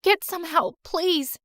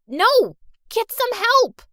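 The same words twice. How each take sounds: First: Said in the usual way. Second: High, loud yell for help; desperate shout. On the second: Acted. Hurt girl yelling to her friend to fetch help. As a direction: scream it after her.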